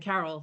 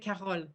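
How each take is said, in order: First: The name is said with an English accent. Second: The name is said with a French accent. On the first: The speaker calls it right. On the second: The speaker calls it wrong.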